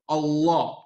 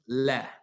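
First: The L is thick and heavy. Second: The L is thin and light. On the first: "it's Mufakham in the Arabic language, which means that it comes off hard" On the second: "it goes from being mufakham to muraqqaq. It becomes soft"

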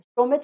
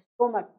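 First: The word ends with a ch sound. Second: The word ends with a k sound. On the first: The speaker calls it wrong. "स्टोमेच नहीं होता है" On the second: The speaker calls it right. "स्टोमेक क आता है"

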